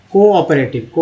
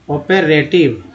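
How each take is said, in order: First: Said in the usual way. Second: cooperative split as को, ओपे, रेटिव; broken into parts. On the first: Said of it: "को है". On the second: Shown as a demonstration. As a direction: pause between the parts of cooperative. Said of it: "ओपे है". (Cooperative को टुकड़ों में, धीरे)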